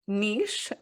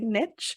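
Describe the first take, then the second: First: It is said with a British accent. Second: It is said with an American accent.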